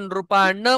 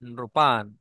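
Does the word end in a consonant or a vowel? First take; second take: vowel; consonant. First: The word ends with a full vowel after n. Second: The word ends on a bare n sound. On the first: The speaker calls it wrong. "आपण जर नृपान म्हटलं तर तो झाला असा" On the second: The speaker calls it right. "हलंतला सुद्धा संस्कृत मध्ये खूप महत्व आहे"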